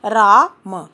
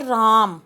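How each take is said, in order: First: "रा म" said in two separate beats, a gap between रा and म; split into syllables. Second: Slow whole word. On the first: Teacher to pupils, spelling out "रा म" syllable by syllable. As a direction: break "रा म" apart, syllable by syllable. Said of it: "म के साथ किसकी आवाज़ आई". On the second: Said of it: "For example राम". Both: Shown as a demonstration.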